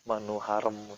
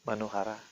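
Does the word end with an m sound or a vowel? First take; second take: m sound; vowel. First: The word ends with an added m sound. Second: The word ends with a plain vowel. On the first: The speaker calls it wrong. "Jangan dikasih M" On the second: The speaker calls it right. "Tidak ada M-nya di sana"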